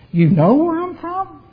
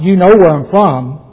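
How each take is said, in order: First: The phrase is said with a questioning tune. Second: The phrase is said with a flat statement tune. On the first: The speaker challenges whether they truly know his origin. The speaker calls it right. "As if it was a question" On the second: The speaker simply affirms that they know his origin. The speaker calls it wrong.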